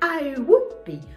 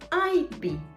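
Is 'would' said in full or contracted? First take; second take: full; contracted. First: The word 'would' is said in full. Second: The word 'would' is shortened to a 'd' sound.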